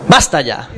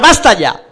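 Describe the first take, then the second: First: Much lower, deeper repeat. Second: Firm exclamation. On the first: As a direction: drop the pitch way down. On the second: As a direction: cut the chatter off firmly. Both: Acted.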